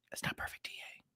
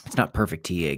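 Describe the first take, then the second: First: Very soft whispered aside. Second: Said in the usual way. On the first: Real, not acted. Streamer excusing his chart work to viewers, whispered. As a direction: whisper it under the breath. Repeats disclaimer to himself in whisper.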